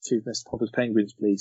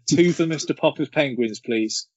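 First: It is said at a quiet, normal volume. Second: It is said noticeably louder.

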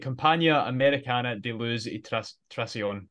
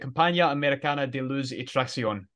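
First: It is said in a broad Scottish accent. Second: It is said in an attempted Spanish accent. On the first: "we'll do it in a broad Scottish accent" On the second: "The last word sounded French"

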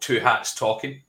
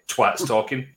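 First: It is said in a neutral accent. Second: It is said in a broad Yorkshire accent. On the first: "It's going to be called Two Hats Talking" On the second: "If you do it in a broad Yorkshire accent"

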